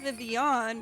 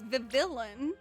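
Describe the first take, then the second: First: The name is said without any L sound inside. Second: The name is said with an L sound inside. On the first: "it's pronounced Vivian" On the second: "Vivillon is how it's literally spelled"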